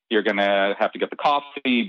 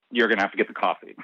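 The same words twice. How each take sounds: First: Said in the usual way. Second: Quicker, matter-of-fact "you're gonna have to get the coffee"; "you're gonna have to get the coffee" run together fast, landing the point; pointed repeat. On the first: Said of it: "we're not saying that". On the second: Retold or imitated.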